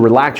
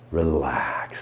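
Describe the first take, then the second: First: It is said in a brisk, unsoothing way. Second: It is said in a slow, soothing way. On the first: The speaker calls it wrong. "that's not relaxing" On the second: The speaker calls it right. "It's relax"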